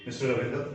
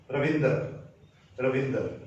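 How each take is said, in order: First: रविंदर with its ending swallowed, final र dropped; English pronunciation. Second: रविंदर with the द and final र clearly sounded; Hindi pronunciation. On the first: Teacher showing the English way, swallowed ending on रविंदर. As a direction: swallow the end of रविंदर, English style, toward "Ravindo". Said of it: "लेकिन English में". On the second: Teacher contrasting Hindi with English, रविंदर fully sounded. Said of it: "Hindi pronunciation ऐसे जाएंगे". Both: Shown as a demonstration.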